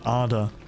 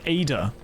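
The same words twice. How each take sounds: First: The name is said with a Norwegian pronunciation. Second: The name is said with an English pronunciation. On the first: The speaker calls it wrong. "Not Ada. That's the way you pronounce it in Norwegian" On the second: The speaker calls it right. "Or Ada, I guess"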